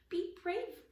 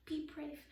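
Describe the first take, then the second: First: Be brave higher and louder; higher repeat. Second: Rising to a firm be brave; steeling himself, be brave; repeated to himself. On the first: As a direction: brave pushed up in pitch and loudness. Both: Acted. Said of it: "Rip repeated to himself".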